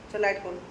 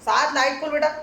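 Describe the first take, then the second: First: Said in the usual way. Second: Raised voice calling across the house. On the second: Real, not acted. Mother calling her son from the doorway, loud.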